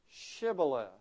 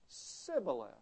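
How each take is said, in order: First: The word begins with an sh sound. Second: The word begins with an s sound. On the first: The speaker is from Gilead. The speaker calls it right. "not the sh, but the s" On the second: The speaker is from Ephraim. The speaker calls it wrong. "they could only say Sibboleth, not the sh, but the s"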